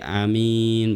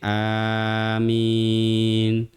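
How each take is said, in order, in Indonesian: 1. Vokal pertama dibaca pendek. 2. Vokal pertama dibaca panjang. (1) "boleh dipendekkan seperti amin" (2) "hamzahnya boleh dipanjangkan menjadi dua harkat seperti amin"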